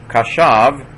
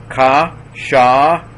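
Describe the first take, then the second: First: Said in the usual way. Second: Ka, sha, each held out high and loud; teacher's slow, loud breakdown of ka, sha; syllable by syllable. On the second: Shown as a demonstration. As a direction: sound out ka, sha as separate, ringing syllables. Teacher sounds word out by syllables.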